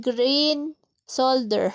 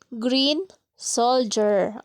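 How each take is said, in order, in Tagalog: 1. Ang salita ay nagtatapos sa simpleng tunog na 'der'. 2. Ang salita ay nagtatapos sa tunog na 'jer'. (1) "Solder? My God, bulo lang mamshi nyo" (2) "Ulitin natin. ... Perfect!"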